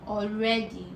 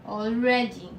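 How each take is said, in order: Both takes have the same delivery.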